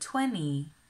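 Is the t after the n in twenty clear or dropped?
dropped. The t after the n is dropped or softened. "but in my Midwestern accent, we say 20"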